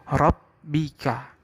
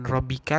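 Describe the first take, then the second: First: The b sound is held briefly. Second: The b sound is short, not held. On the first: The speaker calls it right. "tapi rabbika" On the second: The speaker calls it wrong.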